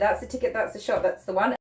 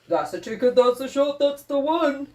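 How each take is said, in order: First: It is said in her own normal voice. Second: It is said imitating her husband's voice.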